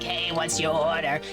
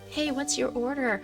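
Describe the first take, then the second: First: The voice sounds bold and low. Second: The voice sounds meek and light. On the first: The speaker feels more confident at work. "feeling a little bolder" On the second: The speaker felt less confident before. "Instead of like"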